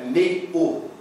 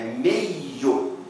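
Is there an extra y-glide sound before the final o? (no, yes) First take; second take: no; yes. First: The i sound does not carry into the o. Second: The i sound carries into the o as a glide. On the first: The speaker calls it wrong. "a pronúncia não é meio" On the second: The speaker calls it right. "Esse som da semivogal, ele dobra aqui no O"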